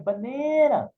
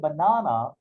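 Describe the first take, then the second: First: The vowels are stretched out long. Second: The vowels are kept short. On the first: The speaker calls it right. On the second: The speaker calls it wrong.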